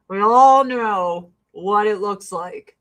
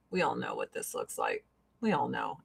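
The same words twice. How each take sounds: First: Louder and slower, leaning on every word; slow emphatic repeat. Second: Hushed aside. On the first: Repeating to viewers about the mask, slow and emphatic. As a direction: spell it out plainly to the camera. Repeats the aside, out loud now. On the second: To viewers about the gross mask, hushed. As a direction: drop to a much softer, lower aside. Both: Real, not acted.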